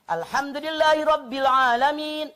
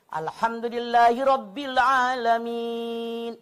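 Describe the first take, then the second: First: It is recited quickly but still clearly. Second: It is recited slowly with a breath after. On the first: "Kalaupun pengen cepat"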